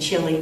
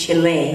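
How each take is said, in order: First: The word is said with an English pronunciation. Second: The word is said with a Spanish pronunciation. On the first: The speaker calls it wrong. "I used to say Chile" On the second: The speaker calls it right. "no, it's Chile"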